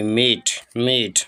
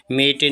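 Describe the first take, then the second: First: मेट as one syllable, silent final e; correct reading. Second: मेटे with the final e sounded; wrong reading. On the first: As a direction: say मेट slowly as "mayt", ending on the t. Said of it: "टी silent होगा यहाँ पर". (मेट, आखिर का ई silent रखकर धीमा सही उच्चारण) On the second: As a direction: misread it as two syllables, मेटे "may-tay". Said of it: "मेटे नहीं पढ़ेंगे". (मेटे, आखिर का ई बोलकर गलत उच्चारण) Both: Shown as a demonstration.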